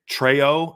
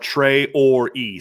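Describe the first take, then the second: First: The name is not said as tray-or-ee. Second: The name is said as tray-or-ee. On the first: This is how the coach was heard saying it. "I heard Coach Freeman say Treo" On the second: This follows the official pronunciation guide. "T R A Y dash O R dash E E E is what they have"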